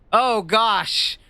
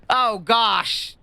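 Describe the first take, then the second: No difference in how they are said.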